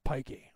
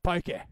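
First: Said in the usual way. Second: London accent, punched up a little; put-on thick London accent. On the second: Shown as a demonstration. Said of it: "if you got a really thick London accent".

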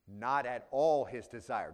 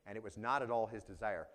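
First: "Not at all his desire" slowed right down, weight on "all"; emphatic, slow. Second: Said in the usual way. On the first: Shown as a demonstration. Preacher repeating the verse to his congregation, slow and emphatic. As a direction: lean hard on "all" to show how firmly he refused. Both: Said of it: "but very emphatic".

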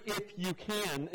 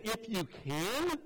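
First: "If you can," said slowly, "can" drawn out; stress on CAN. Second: "If you can," said very slowly, rising on "can"; stress on CAN. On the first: Shown as a demonstration. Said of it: "The words". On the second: Retold or imitated. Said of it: "and he said".

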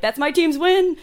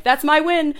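First: High, loud mock team pride; mock fan voice. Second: High, loud mock fan claim. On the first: Contrasting fan claims, mock voice. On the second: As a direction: voice a smug fan.

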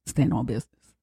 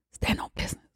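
First: Hushed aside. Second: Breathy whispered repeat; whispered catchphrase. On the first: Repeated catchphrase, quietly. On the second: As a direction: whisper it to yourself. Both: Retold or imitated.

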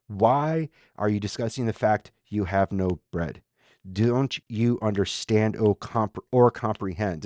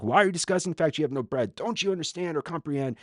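First: Measured, deliberate questions, each phrase set apart; staccato questioning. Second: Quick, higher-pitched volley of questions; rapid-fire questioning. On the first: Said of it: "staccato questioning". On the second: Jesus grilling disciples about bread, rapid-fire. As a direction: fire the questions off without a gap. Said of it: "you just get this". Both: Acted.

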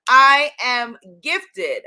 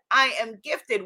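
First: "I am gifted" slow, loud, each word weighted; emphatic slow affirmation. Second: Said in the usual way. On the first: Real, not acted. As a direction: declare "I am gifted" slowly and loudly. Affirmation repeated for viewers.

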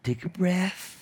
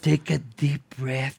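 First: Soothing. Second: Slow, softer calming words; soothing. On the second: Host calming a trembling Britney, slow and soft. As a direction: ease her down gently, slowly. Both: Retold or imitated. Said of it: "entonces le dije".

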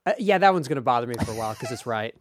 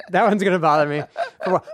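First: Said in the usual way. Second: Laughing through the words, a bit louder. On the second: Real, not acted. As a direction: say it again while laughing. Repeats line through laughter.

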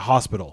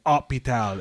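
First: Said in the usual way. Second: Hôpital said the French way, silent H; French h-less hôpital. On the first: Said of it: "instead of". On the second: Shown as a demonstration. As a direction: drop the H in hôpital, French style. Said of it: "when they say H".

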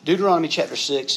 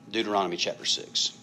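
First: Calling out louder. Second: Said in the usual way. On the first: Real, not acted. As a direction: announce Deuteronomy chapter six higher and louder. Repeating reference for congregation.

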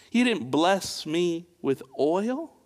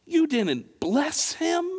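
First: Said in the usual way. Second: High disbelieving question; can't believe he didn't bless him; much higher in disbelief; incredulous. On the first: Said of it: "Did you hear what Jesus was saying?". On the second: Pretend.

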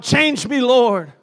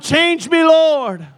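First: A half-raised cry of change me, Lord; mock shouted prayer. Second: High, loud shout of "Change me, Lord"; shouted prayer. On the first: Pastor modelling the congregation's cry, moderately raised. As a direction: call out "Change me" with only some force. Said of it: "somebody that would shout". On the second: Shown as a demonstration. Pastor shouting the cry for the congregation to copy, loud. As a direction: belt "Change me" out like a plea to heaven. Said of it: "somebody shout and shout".

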